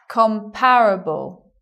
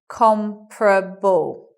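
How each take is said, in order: First: The vowel after the first syllable is kept. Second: The vowel after the first syllable is dropped. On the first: "you will also sometimes hear people say comparable" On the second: "that's why we get comparable"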